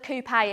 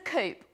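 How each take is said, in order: First: It is said with a fancy, posh pronunciation. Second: It is said with a plain, everyday pronunciation.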